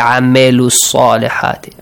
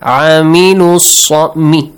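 First: The second syllable has an 'a' vowel. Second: The second syllable has an 'ee' vowel. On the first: The speaker calls it wrong. "Don't say" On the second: The speaker calls it right. "Me, E sound"

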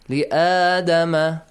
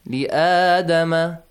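First: The alif vowel is held for two counts. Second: The alif vowel is held for two counts.

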